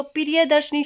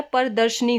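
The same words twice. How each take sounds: First: प्रियदर्शनी said "piriye-darshani"; wrong "priya" opening. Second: प्रदर्शनी said "par-darshani"; correct short opening. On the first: Teacher citing the wrong word, "piriye" opening प्रियदर्शनी. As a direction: open प्रियदर्शनी with "piri-ye". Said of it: "शब्द गलत होगा". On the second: Teacher giving the correct word, "par" opening प्रदर्शनी. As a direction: open प्रदर्शनी with "par", no i sound. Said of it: "जो शुद्ध शब्द है". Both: Shown as a demonstration.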